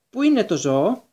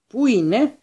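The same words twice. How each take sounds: First: Put-on a touch higher and louder, grating old voice; an old official pressing the question, high and sharp; shrill old wizard. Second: Put-on high, loud and piercing old man's cry; a high, grating old official demanding answers; shrill old wizard. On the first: Committee wizard asking for the animal, high and grating. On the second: Committee wizard searching for the beast, high and piercing. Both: A narrator's reading. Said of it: "η στριγγιά φωνή του γερομάγου".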